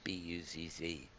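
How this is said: The Z letters are said as 'zee'.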